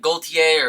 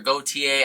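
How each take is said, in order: First: The L sound is pronounced in the name. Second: The L sound is left silent in the name. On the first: This follows how the designer says his own name. "he pronounces the L in his own name" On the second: This follows how most French speakers say it. "most French speakers don't pronounce the L"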